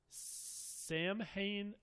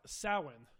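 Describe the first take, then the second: First: The first vowel does not sound like 'cow'. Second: The first vowel sounds like 'ow' in 'cow'. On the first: The speaker calls it wrong. "I'm gonna butcher this pronunciation" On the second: The speaker calls it right. "The standard Irish pronunciation is Sow- Samhain, with the ow as in cow"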